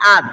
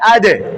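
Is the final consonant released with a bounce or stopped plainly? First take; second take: plain; bounce. First: The final d is stopped without any bounce. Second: The final d is released with a slight bounce. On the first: The speaker calls it wrong. "স্বাভাবিক হয় আদ" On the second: The speaker calls it right. "সঠিক উচ্চারণ হবে আদে। এই যে বাউন্স"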